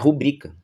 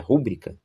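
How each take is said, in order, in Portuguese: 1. A tônica está na segunda sílaba. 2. A tônica está na primeira sílaba. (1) "Mas é rubrica" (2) "todo mundo fala é, rúbrica"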